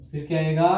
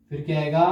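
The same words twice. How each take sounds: The two takes are said the same way.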